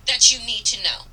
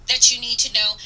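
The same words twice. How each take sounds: The two takes are said the same way.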